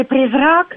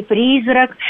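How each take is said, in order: First: «призрак» stressed on the final syllable, РАК; stress on last syllable. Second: «призрак» stressed on the opening syllable, ПРИ; stress on first syllable. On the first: Linguist showing old variants, «призрак» stressed on РАК. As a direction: put the weight on РАК in «призрак». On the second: Linguist showing old variants, «призрак» stressed on ПРИ. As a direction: put the weight on ПРИ in «призрак». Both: Shown as a demonstration. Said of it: "ударность слов".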